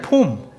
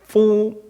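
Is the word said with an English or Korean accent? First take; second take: Korean; English. First: The word is said with a Korean accent. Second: The word is said with an English accent. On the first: "우리 발음으로" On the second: "제가 지금 이렇게 빠따 이렇게 불려서 그렇지"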